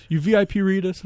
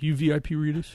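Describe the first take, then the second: First: Louder, higher mock fan demanding an answer; insistent repeat. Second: 轻声模仿粉丝的盘问; pushy fan asking. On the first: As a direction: push the repeat harder like a pushy fan. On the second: Retold or imitated. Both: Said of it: "and she's like".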